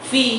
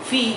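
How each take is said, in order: The two takes are said the same way.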